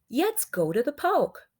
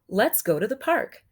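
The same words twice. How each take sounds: First: The first word starts with a W- or Y-like glide. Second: The first word starts with a clear L sound.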